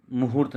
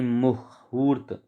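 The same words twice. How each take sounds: First: मुहूर्त said quickly in one piece; wrong form. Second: मुहूर्त very slow, split "mu ... hoort"; corrected long vowel. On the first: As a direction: run मुहूर्त together without lengthening the "hu". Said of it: "मुहूर्त नहीं". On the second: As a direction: stretch the long "oo" in मुहूर्त after a break. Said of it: "इस पर ऊ की मात्रा आएगी". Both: Shown as a demonstration.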